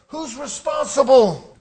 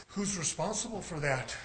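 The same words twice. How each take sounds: First: Loud, slow, emphatic challenge; forceful question. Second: Soft, lowered voice; quiet question. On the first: Preacher challenging the congregation to own it, forceful question. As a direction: drive the question home slowly and loudly. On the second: Preacher turning the question on the congregation, quiet question. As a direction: drop right down and ask it softly. Same question asked softly, then forcefully. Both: Real, not acted.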